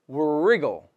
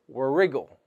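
First: The word begins with an R sound. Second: The same.

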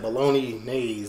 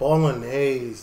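First: The word is split as 'bologna nays'. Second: The word is said the usual way. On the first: The speaker calls it wrong. "I said bologna nays when I tried" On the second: The speaker calls it right. "that's how you pronounce it"

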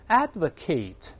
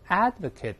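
First: The final syllable sounds like 'ate'. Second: The final syllable sounds like 'it'. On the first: It is the verb meaning to publicly support. "ATE 在动词里边一般发成AT ... advocate 是动词" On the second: It is the noun meaning a supporter. "名词或形容词一般发成IT，不是A ... advocate 是名词"

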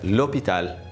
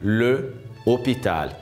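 First: The article's vowel is dropped and joined to the noun. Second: The article is separate, with a pause before the noun. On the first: The speaker calls it right. "para não dar isso, na língua francesa fica l'hôpital" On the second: The speaker calls it wrong. "você poderia falar le hôpital. Aí você tem que fazer uma pausa"

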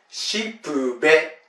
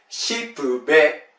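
Both takes have the same delivery.

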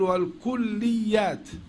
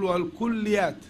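First: The ya sound is doubled and held. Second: The ya sound is single and light. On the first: The speaker calls it wrong. "فلا نقول والكليات" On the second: The speaker calls it right. "وإنما نقول والكليات"

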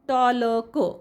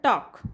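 First: An L sound is heard before the K. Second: No L sound is heard before the K. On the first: The speaker calls it wrong. "टॉलक असं वाचत नाही" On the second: The speaker calls it right. "तर टॉक"

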